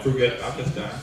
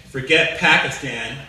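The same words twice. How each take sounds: First: Put-on "Forget Pakistan" in a soft, low Pakistani accent. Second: Said in the usual way. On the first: Pakistani player quitting his country, in a Pakistani accent. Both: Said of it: "They say it with an accent".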